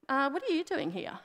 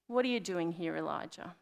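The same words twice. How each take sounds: First: Higher-pitched, puzzled mock question; mock literal questioning. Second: Low-key, tender question; gentle question. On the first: Preacher parodying a clueless God asking Elijah, puzzled. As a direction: ask it as if you truly have no idea. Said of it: "God's not literally saying". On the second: Retold or imitated. Preacher voicing God's question to Elijah, gently. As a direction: ask it softly and knowingly, letting it fall away. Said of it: "he lovingly says to Elijah".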